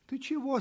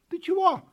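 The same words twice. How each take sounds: First: High-pitched question at normal volume; curious kitten. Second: High, loud kitten cry; shouted question. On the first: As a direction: ask in a high little kitten voice. Kitten asks the panting puppy. (удивлённый вопрос котёнка) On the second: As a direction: shout down to the puppy, high-pitched. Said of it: "закричал котёнок щенку". (крик котёнка) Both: A narrator's reading.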